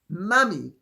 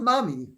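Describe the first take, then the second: First: It is said with a British accent. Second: It is said with an American accent. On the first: The speaker calls it right. "she has them calling her mummy" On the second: The speaker calls it wrong. "not mummy"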